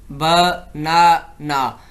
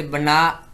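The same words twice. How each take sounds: First: ब, ना, ना with a pause between each syllable; a teacher sounds out ब, ना, ना one syllable at a time for students; split into syllables. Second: Said in the usual way. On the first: Shown as a demonstration. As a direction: break बना into three separate beats. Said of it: "तो अब हमने तीन utterance किए हैं". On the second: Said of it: "एक single utterance जो होती है वो हमारे पास एक सिलेबल होता है".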